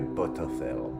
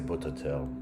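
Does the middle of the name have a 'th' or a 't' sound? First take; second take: th; t. First: The middle consonant is a 'th' sound. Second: The middle consonant is a plain 't' sound. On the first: "I still don't know if I say it right" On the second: "I think I'm gonna say Bototel, just easier"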